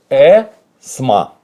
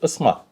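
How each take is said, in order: First: The first vowel is a clear, full e. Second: The first vowel is a reduced, unclear vowel. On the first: It is read the way it is written. The speaker calls it wrong. "когда пишет кириллица, пишет э-сма" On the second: It is said the way people naturally speak. The speaker calls it right. "когда нормально говорят, не по писанному... то ли э, то ли ы"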